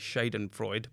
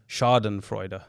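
First: The word is said in an English-style way. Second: The word is said in a German-style way. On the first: The speaker calls it wrong. "I was going to say Schadenfreude" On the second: The speaker calls it right. "It's actually pronounced that way"

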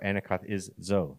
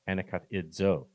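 First: The ending is said with z before d. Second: The ending is said with d before z. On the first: The speaker calls it wrong. "I'm saying that the izdo backwards" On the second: The speaker calls it right. "It's idzo"

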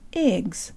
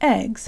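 First: The vowel is high and close. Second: The vowel is low and open. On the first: "It's this high a sound that we need" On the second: "some people say eggs"

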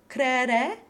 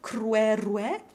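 First: Neither syllable has a W sound. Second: A W sound comes before both open E vowels. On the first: "with no W, just the open E" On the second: "with W open E in both syllables"

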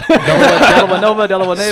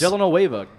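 First: The middle of the name sounds like 'vado'. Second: The middle of the name sounds like 'nueva'. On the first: The speaker calls it right. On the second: The speaker calls it wrong.

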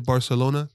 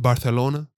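First: The c is pronounced as an s sound. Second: The c is pronounced as a th sound. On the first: The speaker calls it wrong. "I gotta say it properly" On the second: The speaker calls it right. "he even put the Z in there"

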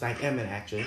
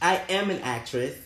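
First: It is said at normal volume. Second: It is said louder.

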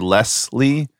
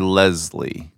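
First: The middle consonant is a hissing S sound. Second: The middle consonant is a buzzing Z sound. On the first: "there are people who say" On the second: "makes me go to the Z sound"

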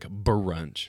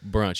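First: The starting B is said with strong extra force. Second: The starting B is said plainly, without extra force. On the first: "You emphasized the B on that brunch" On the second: "But you weren't like brunch"

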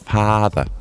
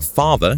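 First: It is said with a long, drawn-out dialect vowel. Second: It is said with a standard English vowel. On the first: "translated into Lincolnshire dialect, apparently comes out as father with two A's" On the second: "the word father"

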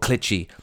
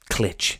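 First: The word ends in an 'ee' sound. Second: The word ends in a consonant sound. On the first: "or Clitchy" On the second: "and not Clitch"

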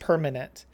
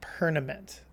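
First: The m comes before the n. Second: The n comes before the m. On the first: The speaker calls it right. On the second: The speaker calls it wrong.

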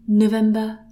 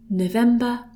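Both takes have the same delivery.

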